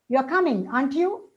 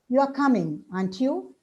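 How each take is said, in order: First: The pitch rises at the end. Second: The pitch falls at the end. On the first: "examples of rising tone" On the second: "with a falling intonation"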